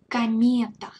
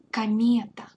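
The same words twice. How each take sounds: First: Комета said kah-MYE-ta, the O reduced to ah; loud clear teaching take; Russian demo word. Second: Комета whispered kah-MYE-ta; whispered repeat. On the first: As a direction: stress the middle syllable of Комета. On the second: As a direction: whisper it back for the learner. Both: Shown as a demonstration. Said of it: "the reduction of O".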